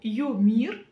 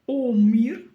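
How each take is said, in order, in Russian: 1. Слово начинается со звука 'yo'. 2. Слово начинается с простого звука 'o'. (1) "Через букву Ё" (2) "Прочитаем через букву О"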